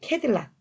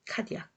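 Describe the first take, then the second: First: The name is said the English way, ending 'lac'. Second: The name is said the French way, ending 'ya'. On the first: "영어로 표시해서 이 캐딜락 이렇게 발음이 됐다고" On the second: "프랑스의 탐험가"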